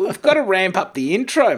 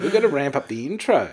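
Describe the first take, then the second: First: Hyped-up announcer. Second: Said in the usual way. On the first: Shown as a demonstration.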